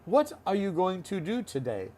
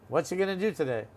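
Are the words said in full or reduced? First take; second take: full; reduced. First: Every word is said fully and separately. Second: The words are run together into reduced forms. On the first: The speaker calls it wrong. "We don't say that" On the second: The speaker calls it right. "We'd say"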